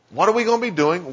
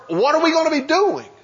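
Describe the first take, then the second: First: Said in the usual way. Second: Much higher, incredulous question; doubtful disciple. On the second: Acted. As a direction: voice the fisherman's anxious disbelief. Voices disciple's worried question.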